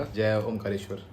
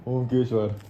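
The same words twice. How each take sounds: First: जय ओमकारेश्वर with the full का syllable; correct name. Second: ओमकेश्वर said short, dropping the का; the wrong ओमकेश्वर, as mom says it; mom's mispronunciation. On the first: Son quotes the proper ओमकारेश्वर after mom's mistake. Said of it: "इन्होंने बोला". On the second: Son mimics mom getting ओमकेश्वर wrong. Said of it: "ये कभी ये नाम सही नहीं लेती अम्मी". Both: Retold or imitated.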